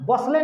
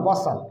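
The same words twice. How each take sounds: First: बसले ending in an audible "le"; final E wrongly sounded. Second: बसल ending on L, with no E; silent final E. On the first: Teacher shows pupils the mistake, final E sounded. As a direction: say बसले with the silent E voiced. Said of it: "बसले नहीं पढ़ोगे". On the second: Teacher models the correct word, silent final E. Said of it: "ई का उच्चारण नहीं होता है". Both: Shown as a demonstration.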